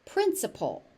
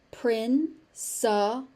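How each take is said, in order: First: Said in the usual way. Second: "Principal" slowly split into prin, suh, pul; slow teaching breakdown of "Principal"; syllable by syllable. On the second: Shown as a demonstration. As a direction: break "Principal" into three separate, drawn-out syllables.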